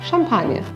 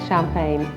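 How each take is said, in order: First: It is said with a French accent. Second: It is said with an English accent. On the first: "unless of course we're French, and then we call it champagne" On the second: "We all call it champagne"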